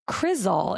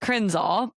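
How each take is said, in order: First: No n sound is added mid-word. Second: An n sound is added mid-word. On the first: The speaker calls it right. "crizol is the word" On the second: The speaker calls it wrong. "crinzol is what I said"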